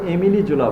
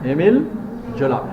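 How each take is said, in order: First: The first name ends with an added 'ee' vowel. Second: The first name ends in a plain 'l' sound. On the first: The speaker calls it wrong. "অনেকে এমিলি জোলা বলে" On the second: The speaker calls it right. "pronunciation Émile Zola"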